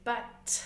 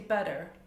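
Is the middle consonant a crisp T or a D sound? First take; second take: crisp T; D sound. First: The middle consonant is a crisp T. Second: The middle consonant sounds like a D. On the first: "standard English T is" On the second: "America for example, you will say"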